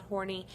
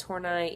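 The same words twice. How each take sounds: First: "Horney" said like "horny", ending in -nee; wrong name pronunciation. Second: "Horney" said as HOR-nigh; correct name pronunciation. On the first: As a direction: say "Horney" to rhyme with corny. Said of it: "that's how you say her name. It's not Horney". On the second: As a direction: end "Horney" like the word "eye". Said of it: "that's how you say her name". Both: Shown as a demonstration.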